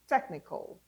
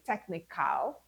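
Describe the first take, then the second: First: The K sound runs straight into L, no vowel. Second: A full vowel is said between K and L. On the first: The speaker calls it right. "your k and your l come together" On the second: The speaker calls it wrong. "You don't say technical"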